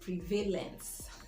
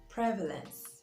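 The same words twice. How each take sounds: First: The stress is not on the first syllable. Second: The stress is on the first syllable. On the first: The speaker calls it wrong. "and not" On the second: The speaker calls it right. "Notice that the stress is on the first syllable"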